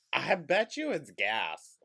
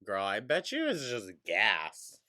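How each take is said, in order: First: "I bet you it's gas" repeated louder and higher; emphatic insistence. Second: Said in the usual way. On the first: Real, not acted. Commentator dismissing the pain, insisting loudly on "gas". Repeats the guess more forcefully.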